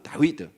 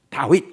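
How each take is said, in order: First: The name ends with a full final syllable. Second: The name ends in a clipped final consonant. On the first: This is the Hebrew reading. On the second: This is the usual Korean reading. "다윗 우리가 읽지만은"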